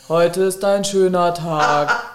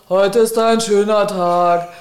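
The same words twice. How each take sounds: First: It is said flatly, without enthusiasm. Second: It is said with more enthusiasm.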